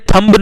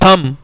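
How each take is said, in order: First: A b sound is heard at the end. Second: No b sound is heard at the end. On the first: The speaker calls it wrong. "बेटा ये थंब नहीं है" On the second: The speaker calls it right. "हमारा बी silent हुआ"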